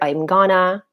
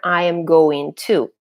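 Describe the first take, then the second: First: The words are reduced and run together. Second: Every word is said fully and separately. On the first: "I heard I'm gonna" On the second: "I was expecting to hear I am going to"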